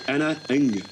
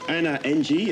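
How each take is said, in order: First: Ng is said as a single syllable. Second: Ng is spelled out as two separate letters. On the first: The speaker calls it right. "but it's Anna Ng" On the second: The speaker calls it wrong. "it's not [name] N G, as I always said"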